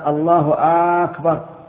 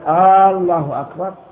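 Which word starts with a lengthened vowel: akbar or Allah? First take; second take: akbar; Allah. First: The opening vowel of the second word is drawn out. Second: The opening vowel of the first word is drawn out. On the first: "ولا في الثاني" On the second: "لا في الجزء الأول منها"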